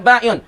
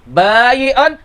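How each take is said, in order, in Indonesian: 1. Konsonan tengahnya hamzah. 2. Konsonan tengahnya bunyi y.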